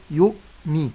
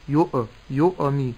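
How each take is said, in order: First: "يؤمي" with a clean glottal stop; correct still hamza. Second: "يؤمي" with an echo after the hamza; wrong bounced hamza. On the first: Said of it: "فأسكن الهمز". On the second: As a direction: bounce the stop in "يؤمي" into a tiny extra vowel. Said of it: "هذه قلقلة". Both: Shown as a demonstration.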